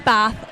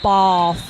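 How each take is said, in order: First: It has a northern short vowel. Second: It has a southern long vowel.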